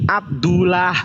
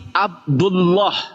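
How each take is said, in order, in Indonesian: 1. Bunyi l-nya tipis dan ringan. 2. Bunyi l-nya tebal dan berat. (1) "nggak mungkin ini Abdullah" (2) "Pasti Abdullah"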